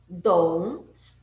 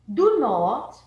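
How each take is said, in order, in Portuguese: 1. É dito como uma única sílaba contraída. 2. É dito como duas palavras completas. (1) "a gente junta palavras" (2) "Muito formal, tá completinho"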